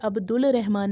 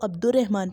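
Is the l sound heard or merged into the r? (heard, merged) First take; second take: heard; merged. First: The l is clearly pronounced before the r. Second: The l disappears and the r is doubled. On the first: The speaker calls it wrong. "अब्दुल रहमान नहीं पढ़ेंगे" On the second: The speaker calls it right. "हम इसको अब्दुर्रहमान पढ़ेंगे"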